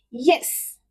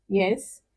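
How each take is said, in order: First: YES short, falling sharply from high; fourth tone. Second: YES swept upward in pitch; rising tone. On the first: Teacher illustrating fourth tone, falling "Yes". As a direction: drop "Yes" firmly from a high pitch. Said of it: "the fourth tone is when you say". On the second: Answering when somebody calls, rising "yes". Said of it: "The second tone is the rising tone". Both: Shown as a demonstration.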